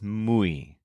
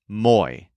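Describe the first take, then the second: First: The vowel starts with 'oo', as in moo. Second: The vowel is an 'oi' sound, as in boy. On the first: The speaker calls it right. "It's muy. Think of mooing like a cow" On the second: The speaker calls it wrong. "this word is not pronounced moy"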